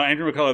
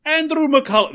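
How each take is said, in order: First: Said in the usual way. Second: High, loud mock-Irish cry; Lucky Charms guy. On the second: Testing a name on his co-host, hammed-up Irish accent. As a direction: sing out the name in a cartoon Irish brogue. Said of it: "if I just do the Lucky Charms guy for all of them".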